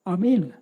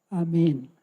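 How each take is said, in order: First: The word is said loudly and forcefully. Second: The word is said very softly. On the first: It sounds like the sermon has just ended. "suara amin keras. Seperti pendeta yang selesai khotbah" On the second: It is meant to go unheard by those nearby. "saya ngomong pelan sekali"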